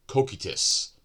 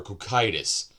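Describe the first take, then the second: First: Cocytus said "koh-KEE-tus"; long-EE pronunciation. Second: Cocytus said "koh-KYE-tus"; long-I pronunciation. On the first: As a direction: pronounce Cocytus with a KEE in the middle. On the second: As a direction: pronounce Cocytus with a KYE in the middle. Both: Shown as a demonstration. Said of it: "I don't know how to pronounce".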